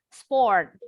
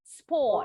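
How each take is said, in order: First: The final R is pronounced, American style. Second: The final R is silent, British style. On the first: "Kalau orang Amerika R di akhir pasti bunyi" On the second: "kalau orang Inggris R-nya nggak bunyi di akhir ya"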